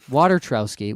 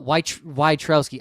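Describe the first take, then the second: First: The name begins with the word 'water'. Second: The name begins with a short 'voy' sound.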